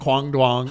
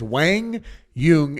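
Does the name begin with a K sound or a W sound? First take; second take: K sound; W sound. First: The name begins with a hard K sound. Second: The name begins with a soft W sound. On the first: The speaker calls it wrong. "It's not Kwang Dong, Kwang Duong" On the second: The speaker calls it right. "It is Wang Yung, and we are going to pronounce it correctly"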